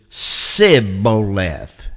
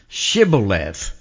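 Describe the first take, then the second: First: The word begins with an 's' sound. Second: The word begins with a 'sh' sound. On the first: This pronunciation reveals the speaker's regional dialect. The speaker calls it wrong. "they couldn't pronounce it because what they would say is Sibboleth" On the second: This is the pronunciation the test expects. The speaker calls it right. "it was hard for them because the influence of their language to say this word"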